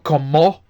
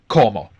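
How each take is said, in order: First: The stress is on the last syllable. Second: The stress is on the first syllable. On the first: The speaker calls it wrong. "it's not como" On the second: The speaker calls it right. "the stress is always on the second last syllable"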